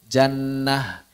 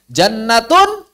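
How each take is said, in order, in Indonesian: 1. Kata ini berakhir dengan bunyi h yang lembut. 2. Kata ini berakhir dengan akhiran -tun penuh.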